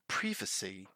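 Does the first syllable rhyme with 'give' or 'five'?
give. The first syllable rhymes with 'give'. This is the British pronunciation. "So in British English, we say privacy"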